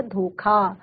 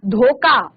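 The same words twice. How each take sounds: First: धोखा with aspirated kh, "dho-khaa"; correct pronunciation. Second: धोखा with plain k, "dhoka"; common mispronunciation. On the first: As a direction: breathe out clearly on the kh of धोखा. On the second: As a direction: drop the aspiration in धोखा. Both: Shown as a demonstration. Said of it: "शुद्ध जो आपका शब्द है".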